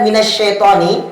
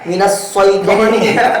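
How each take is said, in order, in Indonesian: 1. Suku kata itu dimulai dengan bunyi sh yang berdesah. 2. Suku kata itu dimulai dengan bunyi s yang tebal dan berat.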